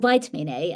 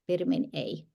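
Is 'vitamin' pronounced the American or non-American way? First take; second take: American; non-American. First: Vitamin is said with an American pronunciation. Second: Vitamin is said with a non-American pronunciation.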